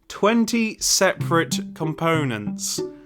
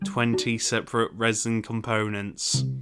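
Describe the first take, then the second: First: It is said with strong emotional feeling. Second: It is said flatly, without feeling.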